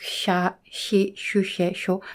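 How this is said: Every syllable begins with an SH sound. The speaker calls it wrong. "They will uh, pronounce it like"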